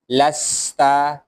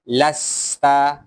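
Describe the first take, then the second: No difference in how they are said.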